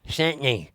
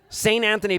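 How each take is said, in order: First: The name is squeezed into two quick syllables. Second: Every syllable of the name is said fully.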